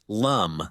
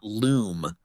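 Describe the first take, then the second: First: The vowel is a short 'uh' sound. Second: The vowel is a long 'oo' sound. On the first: The speaker calls it right. "The main protagonist's name is pronounced Lum" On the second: The speaker calls it wrong. "not Loom"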